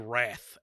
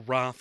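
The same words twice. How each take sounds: First: The word is said with an American vowel. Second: The word is said with a British vowel. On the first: The speaker calls it right. "it's supposed to be" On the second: The speaker calls it wrong. "an upper class Brit. I say"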